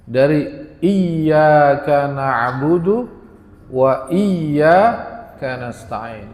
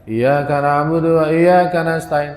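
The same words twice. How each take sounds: First: Iyyaka held with a doubled y, slowly; with tasydid. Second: Iyaka with a single short y; without tasydid. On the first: Shown as a demonstration. Teacher recites iyyaka with the tasydid for the congregation. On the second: Retold or imitated. Teacher imitates the wrong reading without tasydid. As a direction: say iyyaka without doubling the y. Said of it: "Kadang tidak ada tasdidnya".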